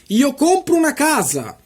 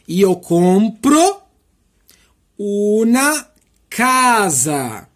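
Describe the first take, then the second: First: The sentence is spoken at a fast pace. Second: The sentence is spoken at a slow pace. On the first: "falo rápido" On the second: "Agora eu vou falar devagarzinho para você"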